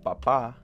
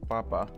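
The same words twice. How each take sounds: First: One vowel is raised higher with extra emphasis. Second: It is said without any vowel raised higher. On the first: It means father or dad. "that little enunciation helps it go up higher" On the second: It means potato. "the first one with potato"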